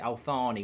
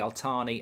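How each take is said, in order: First: The middle consonant is a th sound. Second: The middle consonant is a plain t sound. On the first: The speaker calls it right. "you pronounce it Althani with a T H" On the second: The speaker calls it wrong.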